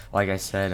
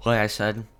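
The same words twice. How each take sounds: First: Said in the usual way. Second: Words stretched by a yawn. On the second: Real, not acted. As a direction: say it mid-yawn. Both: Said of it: "sorry, I yawned".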